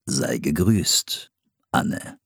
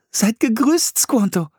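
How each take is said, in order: First: A hint of a lower, very slow Squanto; Squanto's reply. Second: Put-on light, high girl's voice; girl's greeting. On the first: Squanto answers Anne, lower and very slowly. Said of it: "erwiderte Squanto". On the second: Anne greets Squanto in a high girl's voice. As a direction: greet him brightly as young Anne. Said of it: "sagte sie".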